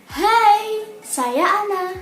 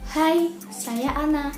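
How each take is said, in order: First: It is spoken at a high volume. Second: It is spoken at a low volume. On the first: "sampai yang tinggi" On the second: "volume yang rendah"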